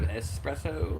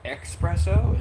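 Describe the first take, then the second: First: The word starts with an 'es' sound. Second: The word starts with an 'ex' sound. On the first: The speaker calls it right. "instead of espresso" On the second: The speaker calls it wrong. "these people who are pronouncing it espresso"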